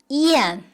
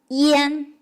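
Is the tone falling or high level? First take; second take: falling; high level. First: It is said on a sharply falling tone. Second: It is said on a high level tone. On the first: It is the verb meaning swallow. "When it's a verb, swallow, it's pronounced as yan, the fourth tone" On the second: It is the noun meaning throat. "When it's a noun, it's pronounced as yan, the first tone"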